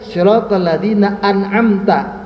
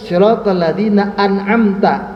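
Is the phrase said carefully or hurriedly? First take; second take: carefully; carefully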